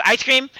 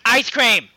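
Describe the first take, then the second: First: Higher mock-curt question, rising at the end; rude, uninterested question. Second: Higher mock-curt exclamation, falling at the end; rude insistence. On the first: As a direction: ask brusquely, imitating a rude server. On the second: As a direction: cut off the customer, imitating rude service. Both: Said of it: "sound so fucking rude and uninterested".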